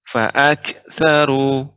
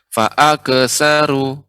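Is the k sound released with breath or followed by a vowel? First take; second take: breath; vowel. First: The k ends with a quick puff of air. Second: The k runs straight into a short vowel. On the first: The speaker calls it right. "sifatnya ada hama suaranya dengan cepat keluar udaranya" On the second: The speaker calls it wrong. "jangan sampai menjadi fa'akesaru"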